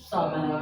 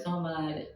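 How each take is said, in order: First: The vowel after the m is short. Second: The vowel after the m is drawn out. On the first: The speaker calls it right. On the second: The speaker calls it wrong. "bukan samad"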